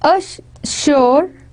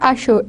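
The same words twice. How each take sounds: First: The middle consonant is an s sound. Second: The middle consonant is an sh sound. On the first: "it was"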